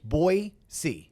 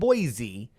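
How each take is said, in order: First: The second syllable is said as 'see'. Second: The second syllable is not said as 'see'. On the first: The speaker calls it right. "B O Y dash S E E. That's how it's pronounced" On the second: The speaker calls it wrong. "It's not Boise"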